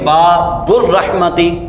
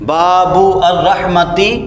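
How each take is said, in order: First: The article's vowel is dropped and words linked. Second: The article's vowel is kept as separate sounds. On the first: The speaker calls it right. "बल्कि बाबुर्रहमती" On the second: The speaker calls it wrong. "नहीं पढ़ते"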